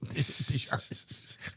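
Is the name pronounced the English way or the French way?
English. The name is pronounced the English way. The speaker does not speak French. "I'm just [name]"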